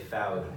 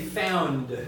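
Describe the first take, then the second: First: The N sound is left out. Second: The N sound is clearly pronounced. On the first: "if we left the the N out, we would say found"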